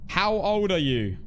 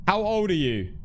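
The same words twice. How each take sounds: The two takes are said the same way.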